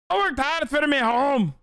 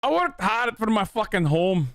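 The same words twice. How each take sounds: First: Much higher, slow mock Scottish take; "worked" hit hard, "home" stretched Scottish-style; Scottish accent. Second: Higher, slow mock Scottish boomer growl; Scottish accent. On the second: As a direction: stress "worked" in a hammed-up Scottish accent. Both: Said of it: "Is that good?".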